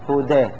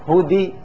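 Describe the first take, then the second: First: The vowel after d leans from a toward i. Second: The vowel after d is a full i sound. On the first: The speaker calls it right. "هدى هكذا" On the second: The speaker calls it wrong. "لا نقول هدي كسرة"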